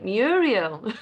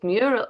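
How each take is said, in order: First: The word is said with three syllables. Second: The word is said with two syllables. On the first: The speaker calls it wrong. "I've been calling it Muriel" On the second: The speaker calls it right. "it's Mural"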